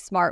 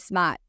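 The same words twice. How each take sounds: First: The word is said in a standard accent. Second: The word is said in a Boston accent. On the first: "We don't say smart" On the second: "we say smart. Like we're from Boston"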